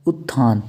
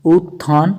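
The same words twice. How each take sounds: First: उत्थान with a quick "ut", falling low; short u. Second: उत्थान with a long "oot", rising; long first oo. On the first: Teacher giving the correct form, short u in उत्थान. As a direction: keep the first vowel of उत्थान short. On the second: Teacher showing the error, long oo in उत्थान. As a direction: stretch the first vowel of उत्थान. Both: Shown as a demonstration. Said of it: "छोटे ऊ और बड़े ऊ".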